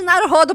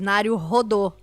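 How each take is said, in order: First: The name ends with a plain 'o', like rodo. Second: The name ends with an 'ou' sound, like rodou. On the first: The speaker calls it wrong. "Nada de Naru rodo pra vocês" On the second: The speaker calls it right. "é rodou, você fica rodando"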